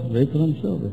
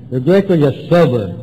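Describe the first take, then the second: First: Softer, compliant echo; writing it down. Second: Firm, measured dictation; dictating. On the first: Newcomer writing what sponsor dictates, echoing softly. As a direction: repeat it quietly while jotting. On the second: Sponsor dictating to the newcomer, dictating firmly. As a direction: give the next item to be written. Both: Retold or imitated. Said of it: "you write and I'll dictate".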